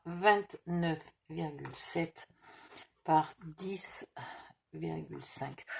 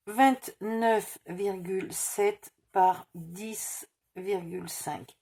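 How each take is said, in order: First: Soft murmur fading to a whisper; murmured while writing. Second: Said in the usual way. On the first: Real, not acted. Crafter writing the size on the cardboard, murmuring under her breath. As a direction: mumble the numbers to yourself as you write them down.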